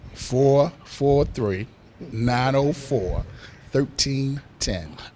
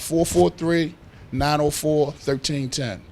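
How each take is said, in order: First: It is said at a slower pace. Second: It is said at a faster pace.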